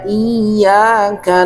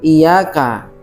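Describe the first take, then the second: First: The y sound is doubled and held. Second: The y sound is single and short. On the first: The speaker calls it right. "Tasydid pada huruf ya harus betul-betul jelas" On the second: The speaker calls it wrong. "Jadi tasydidnya tidak ada"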